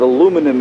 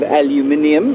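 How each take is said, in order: First: It is said the American way, with four syllables. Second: It is said the British way, with five syllables. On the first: "if you're from America" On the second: "if you're from Britain"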